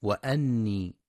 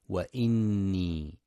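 First: وأني with an a vowel on the hamza; mock mistake, وأني with a; wrong fatha. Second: وإني with an i vowel on the hamza; careful demo of وإني; correct kasra. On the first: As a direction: say it as "wa anni" to show the error. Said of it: "فلا يقرأ". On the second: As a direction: say وإني as "wa inni". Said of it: "لكسر الهمزة". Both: Shown as a demonstration.

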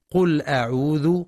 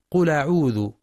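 First: قل أعوذ with the hamza dropped, lam carried over; wrong connected hamza. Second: قل أعوذ with a firm glottal stop on the hamza; clear cut hamza. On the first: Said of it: "والبعض يقرأ". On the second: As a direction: stop crisply before أعوذ. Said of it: "والصواب تحقيقها". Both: Shown as a demonstration.

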